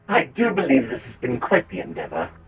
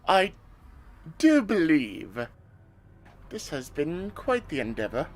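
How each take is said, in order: First: The voice sounds electronically changed by a voice effect. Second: The voice sounds natural, without any electronic effect. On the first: The speaker calls it right. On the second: The speaker calls it wrong.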